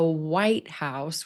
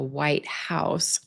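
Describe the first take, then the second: First: The stress falls on the word white. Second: The stress falls on the word house. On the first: The building where the president lives. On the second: "an adjective and then a noun"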